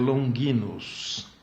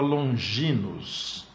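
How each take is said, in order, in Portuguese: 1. O nome é pronunciado com pronúncia latina. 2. O nome é pronunciado com pronúncia em estilo português.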